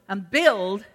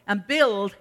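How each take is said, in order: Both takes have the same delivery.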